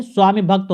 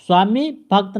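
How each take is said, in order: First: स्वामी भक्त with a short "i" joining the words; correct short vowel. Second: स्वामी भक्त with a long "ee" in स्वामी; wrong long vowel. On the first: Teacher gives the right compound, correcting. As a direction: run स्वामी briefly into भक्त. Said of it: "होता है". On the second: Teacher shows the rejected compound, demonstrating an error. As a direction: draw out the end of स्वामी. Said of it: "नहीं". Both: Shown as a demonstration.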